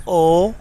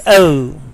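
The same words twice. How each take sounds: First: Letter O as a pure, steady "oh" vowel; Pakistani pronunciation. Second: Letter O gliding "oh-oo"; British pronunciation. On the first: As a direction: say O without any glide. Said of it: "pronounced wrongly as O". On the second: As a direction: say O as a diphthong ending in "oo". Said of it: "correct pronunciation is O". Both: Shown as a demonstration.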